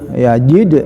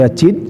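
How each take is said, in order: First: The middle consonant is a voiced 'j' sound. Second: The middle consonant is a voiceless 'ch' sound. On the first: The speaker calls it right. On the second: The speaker calls it wrong. "bukan ya cid"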